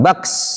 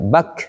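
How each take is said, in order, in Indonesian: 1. Huruf k di akhir berakhir dengan desis seperti s. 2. Huruf k di akhir berakhir bersih tanpa desis. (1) "jangan ke S. Jangan baks" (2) "Bukan, tapi bak"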